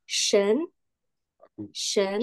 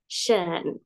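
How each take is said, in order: First: "shen" rising like a question; second-tone demo. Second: "Shen" low and dipping, drawn out; third-tone demo. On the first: Teacher modelling tone two for class, rising "shen". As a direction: lift the pitch through "shen". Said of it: "Itu nada kedua". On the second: Teacher modelling tone three for class, dipping "Shen". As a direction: sink the pitch in "Shen". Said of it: "dengan nada tiga". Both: Shown as a demonstration.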